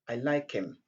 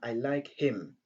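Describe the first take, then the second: First: The h in 'him' is dropped. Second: The h in 'him' is clearly pronounced. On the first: The speaker calls it right. "on dit" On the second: The speaker calls it wrong. "Au lieu de dire"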